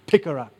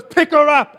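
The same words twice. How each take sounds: First: "Pick her up" said low and level, unbothered; "Pick her up" said flatly, no argument; calm command. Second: High, loud "Pick her up" shouted as an order; commanding shout. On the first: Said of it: "he turns to the crowd and he says". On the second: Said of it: "And Smith goes". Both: Retold or imitated.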